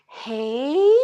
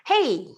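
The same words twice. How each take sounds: First: The greeting sounds warm and affectionate. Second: The greeting sounds neutral and reserved. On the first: The speaker is greeting someone they love. "when you meet um somebody you love" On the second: The speaker is greeting a stranger. "it's like when you meet a stranger"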